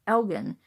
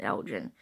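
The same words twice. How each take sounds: First: ELGIN with a hard g; original pronunciation. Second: ELGIN with a soft g; childhood pronunciation. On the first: Woman explaining what most people don't know, hard-g ELGIN. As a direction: say ELGIN with g as in get. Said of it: "That is actually pronounced Elgin". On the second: Woman recalling what she grew up calling it, ELGIN with a j sound. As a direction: say ELGIN with g as in gem. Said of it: "I grew up with calling it". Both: Shown as a demonstration.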